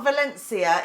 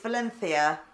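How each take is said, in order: First: The consonant before -ia is an s sound. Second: The consonant before -ia is a th sound. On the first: The speaker calls it wrong. "so it's not Valencia" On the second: The speaker calls it right. "pronounced with a T H"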